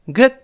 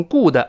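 First: "good" with short uh-like vowel, d held back; unreleased d. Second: "good" mispronounced as "goo-de", long oo; wrong "oo". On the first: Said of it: "施暴". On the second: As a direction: overdo a long oo and added vowel in "good". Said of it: "不要读成good". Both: Shown as a demonstration.

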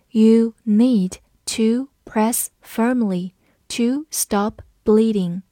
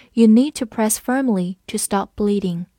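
First: Very measured, slow word-by-word reading; slow read-along. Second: Said in the usual way. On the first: Shown as a demonstration. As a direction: take it slowly, pausing between words. (一词一顿，慢速领读) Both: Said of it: "跟着我慢读一遍".

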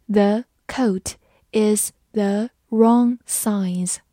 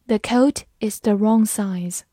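First: Slow, one word at a time; slow read-along. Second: Said in the usual way. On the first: Shown as a demonstration. Teacher leads students through the sentence, slow read-along. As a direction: pause after every word for learners to follow. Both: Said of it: "慢慢来读".

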